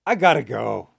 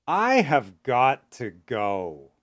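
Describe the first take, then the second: First: The phrase is spoken fast with reduced words. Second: The phrase is spoken slowly with full words. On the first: "and fast"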